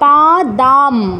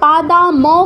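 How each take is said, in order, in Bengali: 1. m-এর পরে কোনো স্বরধ্বনি নেই, m শব্দাংশ বন্ধ করে। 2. m-এর পরে একটি পূর্ণ স্বরধ্বনি আসে। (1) "অর্ধ মানে অটা বাদ" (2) "পা দা ম কিন্তু হবে না"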